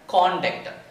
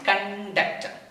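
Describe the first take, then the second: First: The stress is on the first syllable. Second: The stress is on the second syllable. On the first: It means behavior. "If you stress on C, it should be pronounced like a conduct" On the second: It means carrying out an act. "If you stress on D, we have to pronounce conduct"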